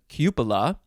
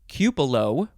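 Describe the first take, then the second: First: The final vowel is pronounced as 'ah'. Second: The final vowel is pronounced as 'oh'. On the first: The speaker calls it right. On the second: The speaker calls it wrong.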